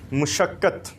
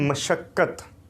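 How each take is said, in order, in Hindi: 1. पहले अक्षर में 'u' स्वर है। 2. पहले अक्षर में 'a' स्वर है। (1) "मुशक्क़त नहीं होता" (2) "ये है मशक्क़त"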